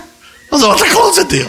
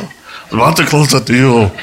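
First: Very high, squeaky comic complaint; mock wail. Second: Said in the usual way. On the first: Missionary robbed of a convert, high mock wail.

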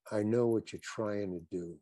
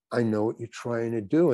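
First: Softer, hushed, leaning in close; mock whisper. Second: Said in the usual way. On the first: Larry David leans in and murmurs to the actor, softly. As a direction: director whispering privately to actor, hushed and soft. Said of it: "he whispers to me". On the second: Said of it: "So he says".

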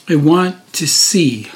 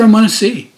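First: Slow, each word set apart; deliberate repeat. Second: Higher, lively plea; earnest request. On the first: Preacher repeating the blind man's wish, slow and deliberate. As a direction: say it slowly for weight. Same words repeated for weight. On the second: Blind man answering Jesus, higher earnest request. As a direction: ask it readily, pitched up. Beggar's answer, first take. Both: Retold or imitated.

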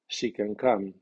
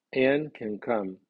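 First: "She" moderately accented, main stress on "come"; medium stress on pronoun. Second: "Anne" drawn out with full accent, "can" weak; slow, strongly accented "Anne" opening the statement; strong stress on name. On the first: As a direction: keep "She" light and land on "come". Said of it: "el pronombre ... lleva acento medio". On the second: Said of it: "El nombre lleva acento fuerte". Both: Shown as a demonstration.

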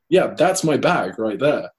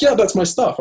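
First: Slow, steady, back near his own pitch; his own firm reply. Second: Much higher and louder imitated woman; lady's voice. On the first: Retold or imitated. He answers the lady calmly in his own voice, slowly. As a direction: drop back down and state it slowly. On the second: The lady claims the stuff as hers, pitched way up. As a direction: pitch way up for the stranger.

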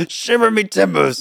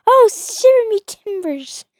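First: High, hammed-up pirate; mock pirate exclamation. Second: High, slow mock pirate; drawn-out pirate exclamation. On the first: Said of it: "you sound like a pirate". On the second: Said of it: "I'm like".

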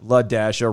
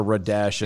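First: "Ladasha" opening on an L sound; L at the start. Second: Low "Radasha" opening on an R sound; R at the start. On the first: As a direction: say "Ladasha" as luh-DASH-uh. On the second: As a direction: say "Radasha" as ruh-DASH-uh. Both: Shown as a demonstration. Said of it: "No, Ladasha".

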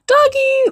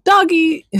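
First: "Doggy!" squealed very high after a gasp; gasp, then squeal "Doggy!" like a thrilled kid; excited kid squeal. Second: A higher, lighter "Doggy"; mild doggy exclaim. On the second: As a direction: say "Doggy" as a happy little exclaim. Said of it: "maybe not with that level of excitement". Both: Retold or imitated.

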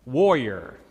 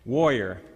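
No difference in how they are said.

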